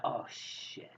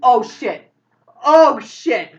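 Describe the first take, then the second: First: Whispered dread, far softer; hushed alarm. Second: Loud, high panicked exclamation; scared out of mind. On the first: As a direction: whisper it under your breath. Carrie spots people coming out. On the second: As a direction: cry out in horror at your own accident. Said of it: "Carrie seems scared out of his mind". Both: Acted.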